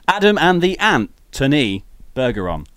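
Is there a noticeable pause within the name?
yes. The name is said with a pause.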